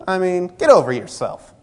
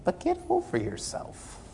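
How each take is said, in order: First: Huffy, snippy retort in a mock offended voice; scoffing at a brother who snubbed him; mock indignant. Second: Breathy whispered "get over yourself", much softer and higher; whispered bluntly to the congregation; hushed rebuke. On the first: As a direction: toss it off like a wounded ego. Offended quote in hallway story. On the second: Real, not acted. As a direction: lean in and hush the rebuke. Preacher's blunt advice.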